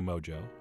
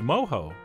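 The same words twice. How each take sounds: First: The middle consonant is an English j sound. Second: The middle consonant is an h sound. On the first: "In real life, I'm going to continue to say mojo, because it really does sound so much cooler" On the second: "It is mojo. So that's how I will be pronouncing it"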